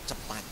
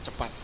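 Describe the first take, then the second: The two takes are said the same way.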